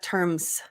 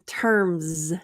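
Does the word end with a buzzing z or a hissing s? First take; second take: s; z. First: The word ends with an unvoiced s sound. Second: The word ends with a voiced z sound. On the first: The speaker calls it wrong. "not terms" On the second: The speaker calls it right. "another Z terms z, z"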